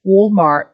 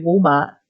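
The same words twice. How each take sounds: First: Walmart with a sounded American R; American accent. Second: Said in the usual way. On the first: Shown as a demonstration. Storyteller repeating the store name for listeners, American accent.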